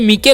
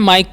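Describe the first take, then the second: First: The vowel is 'ee' and the final e sounds. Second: The vowel is 'eye' and the final e is silent. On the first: The speaker calls it wrong. "इसे मीके नहीं" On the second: The speaker calls it right. "माइक पढ़ना"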